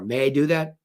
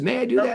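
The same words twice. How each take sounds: First: The pitch falls at the end. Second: The pitch rises at the end. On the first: The speaker sounds in control. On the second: The speaker sounds apologetic.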